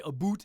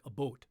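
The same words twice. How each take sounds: First: Boot said with a long oo, as boot; a boot, oo vowel, the way people mock it; wrong Canadian vowel. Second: Boat said with an oh vowel, like boat; a boat, the Canadian about as he hears it. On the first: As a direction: say a boot with an oo, the cliché way. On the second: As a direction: say a boat, round oh sound. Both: Shown as a demonstration. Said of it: "Canadian is more like a boat".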